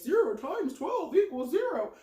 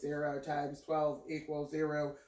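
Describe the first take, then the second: First: It is said in a cartoon voice. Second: It is said in a robot voice.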